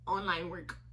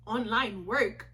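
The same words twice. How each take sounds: First: Low, soft, matter-of-fact reply; evasive answer. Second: Slow, questioning repeat with a rise; skeptical echo. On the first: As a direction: answer quietly and give nothing away. Evasive answer to clerk's question. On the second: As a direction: imitate a doubtful clerk, drawing it out. Clerk doubts the speaker's answer. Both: Retold or imitated.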